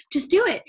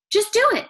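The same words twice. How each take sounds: First: Said in the usual way. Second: Higher, louder, firm "Just do it"; professor's urging. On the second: Retold or imitated. Professor pushing his student, higher and louder command. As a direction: push it like a professor ordering you on. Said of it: "And so he said".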